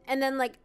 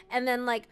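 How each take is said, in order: Both takes have the same delivery.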